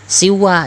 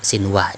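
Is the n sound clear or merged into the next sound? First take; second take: merged; clear. First: The n merges into a doubled w. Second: The n is pronounced clearly before the w. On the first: The speaker calls it wrong. "jangan siwa, jangan kamu tasydidkan" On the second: The speaker calls it right. "tetap dibaca sinwa"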